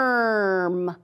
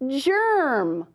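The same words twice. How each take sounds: First: The word begins with a hard G sound. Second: The word begins with a soft J sound. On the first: The speaker calls it wrong. "Is that right? No?" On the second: The speaker calls it right. "let's try to read that word with the soft G"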